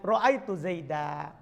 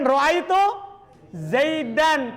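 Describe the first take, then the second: First: The last word ends with a long a vowel. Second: The last word ends with an n sound. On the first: The speaker stops at this word. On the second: The speaker keeps going without a stop.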